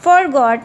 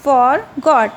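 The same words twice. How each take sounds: First: Said in the usual way. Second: "forgot" split as for, pause, got; syllable by syllable. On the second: Shown as a demonstration. Teacher showing two syllables, "forgot" broken in two. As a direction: say "forgot" in two separate beats. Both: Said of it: "two syllables".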